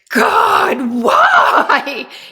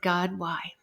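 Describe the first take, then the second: First: It is screamed loudly and desperately. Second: It is said at a normal, quiet level.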